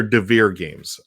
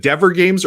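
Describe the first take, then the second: First: Devere stressed on the second syllable, like "de-VEER"; alternative pronunciation. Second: Dever with a short first vowel, rhyming with "ever"; alternative pronunciation. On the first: Streamer offering another guess at the publisher's name, alternative pronunciation. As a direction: say Devere with a long "ee" at the end. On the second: Streamer guessing a game publisher's name, alternative pronunciation. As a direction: say Dever with the weight up front. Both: Shown as a demonstration. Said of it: "don't know how it's pronounced".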